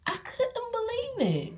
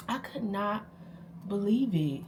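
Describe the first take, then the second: First: High-pitched disbelief. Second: Said in the usual way. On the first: Retold or imitated. First take, very high. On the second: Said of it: "repeat of disbelief".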